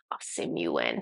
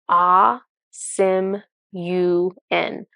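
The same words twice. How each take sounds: First: Very low, whispered, drawn-out name; Ah Sim Yuen's deep voice. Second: Said in the usual way. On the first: Retold or imitated. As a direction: drop far down and breathe out the dragon's name slowly. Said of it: "he says it slowly and deep". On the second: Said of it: "he doesn't say it like that".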